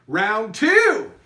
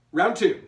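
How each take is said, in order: First: Announcer round call. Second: Said in the usual way. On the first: Pretend. Host to the online teams, loud announcer call. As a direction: round two called out loud. Calling end of round two.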